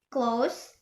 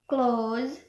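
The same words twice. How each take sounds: First: "close" with a short O and final S sound; brief vowel in "close", ending in a hiss of S. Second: "close" with a long O and final Z sound. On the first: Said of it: "this is for short O". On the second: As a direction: stretch the vowel of "close", ending in Z. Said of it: "this is for long O". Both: Shown as a demonstration.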